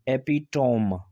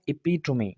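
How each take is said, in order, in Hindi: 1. शब्द के अंत में कोई अंतिम स्वर ध्वनि नहीं है। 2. शब्द का अंत एक स्पष्ट अंतिम 'ee' ध्वनि के साथ होता है। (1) "हम पढ़ रहे थे इसको एपिटोम" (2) "पर यहाँ पर इसको पढ़ा जाएगा एपिटोमी"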